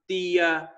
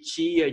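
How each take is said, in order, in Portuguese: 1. A palavra começa com um t simples. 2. A palavra começa com um som parecido com ch. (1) "o sul do Brasil tem regiões que falam" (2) "Em vez de"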